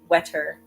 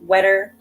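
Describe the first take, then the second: First: The middle consonant is a clear, crisp T. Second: The middle consonant sounds like a soft D. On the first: "in British English, you're more likely to pronounce both T's" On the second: "In American English, ... that t sound sounds more like a D"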